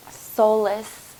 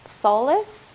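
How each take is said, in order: First: Said in the usual way. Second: "Solace?" repeated as a surprised question with a rising end; puzzled echo. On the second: Real, not acted. Channeling a word to her viewers, then surprised by it. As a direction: echo "Solace?" with a lifted, wondering tone as if hearing it for the first time. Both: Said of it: "I don't even know that word".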